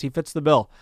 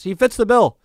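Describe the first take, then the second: First: Said in the usual way. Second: He fits the bill, loud and high, bill falling hard; emphatic insistence. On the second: Real, not acted. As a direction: slam the point home that he fits the bill. Emphatic verdict on Schilling.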